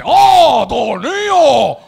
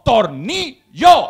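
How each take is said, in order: First: "tornillo" drawn out loudly in mock Chinese accent; hammed-up Chinese-accented "tornillo" after a big "oh"; mock Chinese shopkeeper accent. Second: "tornillo" broken into slow, separate syllables; "tornillo" very slowly, each syllable stressed for a foreigner; syllable-by-syllable correction. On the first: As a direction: shout "tornillo" as one long Chinese-accented word. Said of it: "Y te dice". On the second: Acted. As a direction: spell out "tornillo" as tor - ni - llo. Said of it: "le tienes que decir tú al chino".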